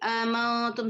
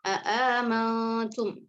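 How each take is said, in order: First: Only one glottal stop is pronounced. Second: Both glottal stops are fully pronounced. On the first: "isqatul hamzah ula. Jadi amantum saja" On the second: "tahqiq hamzah pertama dan kedua tanpa idghal"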